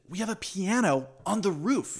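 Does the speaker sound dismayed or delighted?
delighted. The tone sounds delighted and upbeat. Having the piano there is a wonderful thing. "But instead she said"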